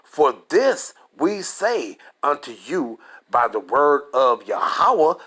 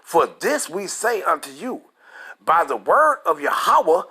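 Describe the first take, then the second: First: It is read more slowly. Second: It is read at a normal pace.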